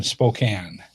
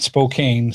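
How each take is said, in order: First: "Spokane" ending in a short A, like can; corrected Spokane. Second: "Spokane" with a long A, rhyming with cane; mispronounced Spokane. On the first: Host correcting wife's Spokane, short-A ending. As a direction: say "Spokane" to rhyme with man. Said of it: "Not Spokane". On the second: Host correcting wife's Spokane, mispronounced with long A. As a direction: say "Spokane" to rhyme with rain. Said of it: "Gotta say it right". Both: Shown as a demonstration.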